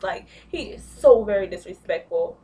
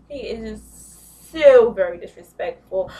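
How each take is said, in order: First: Said in the usual way. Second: So very disrespectful punched much louder and slower; louder, slower emphasis on so very; emphatic. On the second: Real, not acted. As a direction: hammer so very disrespectful home.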